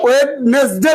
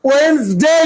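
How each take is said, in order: First: "ওয়েডনেসডে" in three syllables, wed-nes-dey; wrong pronunciation. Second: "ওয়েনসডে" in two syllables, wenz-dey; corrected pronunciation. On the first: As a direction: sound out the extra syllable in "ওয়েডনেসডে". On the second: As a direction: model "ওয়েনসডে" with the d before n silent. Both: Shown as a demonstration. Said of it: "ওয়েডনেসডে না".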